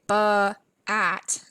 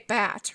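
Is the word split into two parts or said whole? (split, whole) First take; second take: split; whole. First: An extra vowel breaks the word into two parts. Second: The word is said smoothly as one syllable. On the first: The speaker calls it wrong. "we don't say ba at" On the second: The speaker calls it right. "we say bat"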